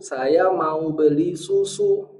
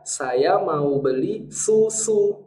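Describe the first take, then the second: First: The s sound is rounded like the vowel. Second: The s sound stays thin, unrounded. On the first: "S-nya ikut ke U" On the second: "kalau di situ adalah sin"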